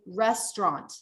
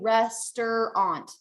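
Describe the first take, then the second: First: The word is said with two syllables. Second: The word is said with three syllables. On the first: The speaker calls it right. "We want to say restaurant" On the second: The speaker calls it wrong. "we don't want to say restaurant. That's not right"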